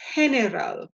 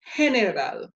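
First: The G sounds like an H. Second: The G sounds like an H.

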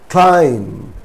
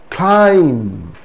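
Both takes have the same delivery.

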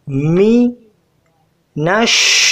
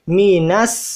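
First: The final consonant is a sh sound. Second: The final consonant is an s sound. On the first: The speaker calls it right. "यहाँ पे शीन की आवाज़ आएगी, न के सीन।" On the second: The speaker calls it wrong. "कोई कहता है मी नस, ये गलत है।"

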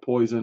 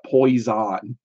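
First: The word sounds like the ordinary word poison. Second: The word has a strong, buzzing Z sound. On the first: The speaker calls it wrong. "I'm not saying it poison" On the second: The speaker calls it right. "Poison with a Z. I'm pronouncing it poison"

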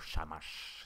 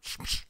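First: The word is said with full, open vowels. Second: The word is said almost without vowels. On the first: This is how the lower classes would say it. "the vowels become much more free" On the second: This is how the higher classes would say it. "It's more like a sound"

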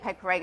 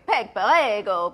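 First: It is said with a plain English accent. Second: It is said with an Italian accent. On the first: The speaker calls it wrong. "You can't say Peg Perego" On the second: The speaker calls it right. "you have to go Peg Perego"

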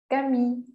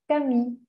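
Both takes have the same delivery.

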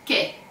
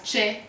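First: It starts with a hard k sound. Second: It starts with a ch sound, as in church. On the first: The speaker calls it right. "it's pronounced che" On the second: The speaker calls it wrong. "it's absolutely wrong to read it as che or chi as you do in English"

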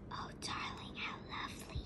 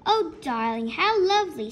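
First: It is read quietly. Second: It is read very loudly.

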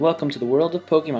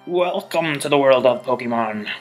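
First: It is said in his own natural voice. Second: It is said in a put-on Professor Oak voice.

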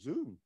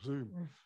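First: The word sounds excited and full of wonder. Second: The word sounds flat, weary and unimpressed. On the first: The thing is new and exciting. "people went, ooh" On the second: The thing is ordinary and tiresome. "rather than"

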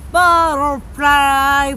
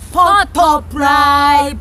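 First: It is said with a native-like American accent. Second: It is said with a Korean-style Konglish accent. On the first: The speaker calls it wrong. "그러면 안 돼요" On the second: The speaker calls it right. "너무 촌스럽지 않나요? 콩글리시 아닌가요?"

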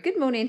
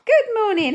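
First: It is said quietly. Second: It is said loudly.

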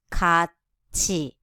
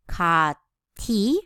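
First: The middle consonant is a ch sound. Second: The middle consonant is a plain t sound. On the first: The speaker calls it right. "It must be 같이, ch sound" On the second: The speaker calls it wrong. "We will not pronounce it"

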